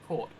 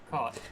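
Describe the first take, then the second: First: Its vowel differs from the vowel in cot. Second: Its vowel is the same as in cot. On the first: "So I say cot and court" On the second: "but you say cot and caught"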